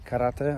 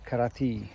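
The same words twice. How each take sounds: First: It is said with a Japanese pronunciation. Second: It is said with an English pronunciation. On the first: "In Japanese is karate" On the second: "but in English is karate"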